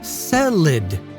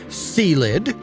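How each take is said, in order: First: The first syllable sounds like 'say'. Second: The first syllable sounds like 'see'. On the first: "the Sicilian Cestus Caesarian family" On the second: "the Caesar Cesium family with a C in front"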